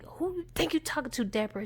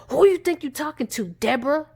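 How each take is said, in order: First: Quick, soft retold challenge; switched persona. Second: Loud, fast, high retold outburst; deranged snap. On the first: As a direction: act out the deranged man under your breath. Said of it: "He just switched and transformed real quick". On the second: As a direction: act out a man suddenly switching on her. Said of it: "he looked like this crazy, deranged nut".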